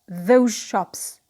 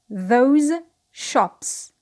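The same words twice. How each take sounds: First: 'Those' ends in a zh sound. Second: 'Those' ends in a z sound.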